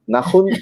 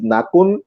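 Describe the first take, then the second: First: The middle consonant is a throaty h sound. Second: The middle consonant is a hard k sound. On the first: The speaker calls it right. "he said that Nahun" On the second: The speaker calls it wrong. "initially, uh, I talk, I said he's Nakun"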